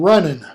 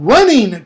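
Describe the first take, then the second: First: The word ends with an 'in' sound. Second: The word ends with a full 'ing' sound. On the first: This is the later early modern pronunciation. "it becomes in" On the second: This is the older medieval pronunciation. "In Middle English, the ing was pronounced"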